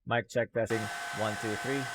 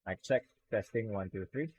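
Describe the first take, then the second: First: The blow dryer noise is loud behind the voice. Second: The blow dryer noise is faint behind the voice. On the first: "turning off the noise removal without turning off the blow dryer" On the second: "And blow dry test"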